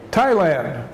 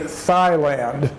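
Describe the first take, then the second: First: The word starts with a plain T sound. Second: The word starts with a TH sound. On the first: The speaker calls it right. "in Thailand, they say Thailand" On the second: The speaker calls it wrong. "in English, we would say Thailand, but but that would be incorrect"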